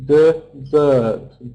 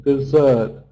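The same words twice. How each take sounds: First: "Dessert" broken slowly into two beats, de-ssert; split into syllables. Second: Said in the usual way. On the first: Shown as a demonstration. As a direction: separate both syllables of "Dessert" clearly. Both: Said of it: "Two syllables".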